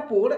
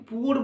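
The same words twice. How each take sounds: First: পোর said as one syllable, oo vowel then r; correct pronunciation. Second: পুয়োর said in two syllables, pu then yor; common pronunciation. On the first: Teacher showing students the correct পোর pronunciation. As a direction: say পোর like English pour, no glide. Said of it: "উচ্চারণটা পোর". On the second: Teacher showing the common পুয়োর pronunciation. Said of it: "অনেকে এটাকে পুয়োর বলে চিনি". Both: Shown as a demonstration.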